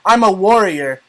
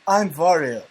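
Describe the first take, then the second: First: It is said in his normal accent. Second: It is said in a put-on Russian accent.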